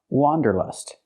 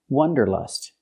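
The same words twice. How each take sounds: First: The first vowel is an open ah sound. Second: The first vowel is a short uh sound. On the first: The speaker calls it right. "It's pronounced wanderlust" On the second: The speaker calls it wrong. "The word is not pronounced wanderlust"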